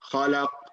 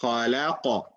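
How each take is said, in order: First: The final consonant stops flat without a bounce. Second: The final consonant is released with a bounce. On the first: The speaker calls it wrong. "You cannot say" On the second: The speaker calls it right. "The proper way of saying it"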